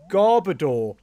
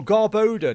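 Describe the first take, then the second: First: Garbodor said GAR-buh-dor, ending like "door". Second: Garbodor said gar-BOH-duh, like "odour"; long OH in the middle of Garbodor. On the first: Streamer offers viewers one pronunciation, GAR-buh-dor. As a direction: stress the first syllable of Garbodor, short middle. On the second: Streamer offers viewers the other pronunciation, gar-BOH-duh. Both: Shown as a demonstration. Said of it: "depending on how you pronounce it".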